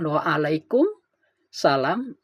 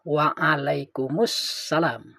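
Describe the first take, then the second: First: Some sounds are dropped from the reply. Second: Every sound of the reply is fully pronounced. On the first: The speaker calls it wrong. "ada minimal tiga huruf yang dibuang" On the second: The speaker calls it right. "yang benar itu kan mestinya"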